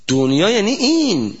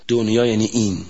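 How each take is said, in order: First: دنیا یعنی این higher and louder, weight on این; emphatic repeat. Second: Said in the usual way. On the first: Shown as a demonstration. Preacher driving the point home to the congregation, emphatic.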